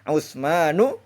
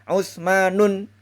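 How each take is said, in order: First: The name ends on a vowel without n. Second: The name ends with an added n sound. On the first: The speaker calls it right. "Harus dibaca Utsmanu" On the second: The speaker calls it wrong. "Itu tidak boleh"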